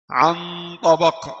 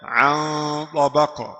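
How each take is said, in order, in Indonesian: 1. Bunyi n diucapkan dengan ujung lidah menyentuh. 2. Bunyi n tersembunyi, ujung lidah tidak menyentuh. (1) "Jadi ujung lidah bertemu" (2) "Kemudian aqwa"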